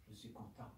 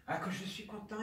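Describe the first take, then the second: First: Murmure à peine voisé, presque sans souffle; confie-le tout bas, pour soi; chuchoté. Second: Exclamation nettement plus aiguë; joie soudaine. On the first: (chuchotement résigné) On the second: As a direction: laisse éclater la joie d'un coup. (élan de joie soudain) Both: Acted. Mourant se réjouit, chuchote puis s'exclame.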